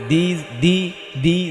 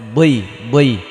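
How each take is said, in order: First: The consonant is light and thin. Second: The consonant is heavy and thick. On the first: The speaker calls it wrong. "দালজের তো দি" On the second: The speaker calls it right. "দজের বই বই"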